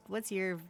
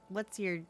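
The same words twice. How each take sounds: The two takes are said the same way.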